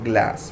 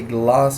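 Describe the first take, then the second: First: It is said with an American short vowel. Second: It is said with a British long vowel. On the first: "the British or the American accent?" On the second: "the British or the American accent?"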